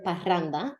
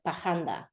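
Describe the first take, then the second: First: The R is a standard tongue trill. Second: The R is dragged, sounding like an h.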